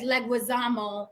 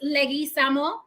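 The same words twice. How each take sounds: First: The name is said with an American pronunciation. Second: The name is said with a Spanish pronunciation. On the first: "he says Leguizamo, I guess because um, it sounds more American" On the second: "It is Leguizamo"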